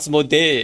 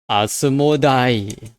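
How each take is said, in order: First: The name ends with a 'dee' sound. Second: The name ends with a 'die' sound. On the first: This is the localized English form of the name. The speaker calls it wrong. "it's not Asmodee" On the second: This is the original Japanese form of the name. The speaker calls it right. "there's the word die in it"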